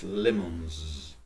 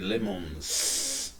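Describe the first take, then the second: First: The plural ending is a voiced z sound. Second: The plural ending is a voiceless s sound. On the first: The speaker calls it right. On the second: The speaker calls it wrong. "You don't say"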